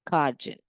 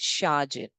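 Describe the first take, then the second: First: The word starts with a k sound. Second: The word starts with an sh sound. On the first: The speaker calls it wrong. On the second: The speaker calls it right.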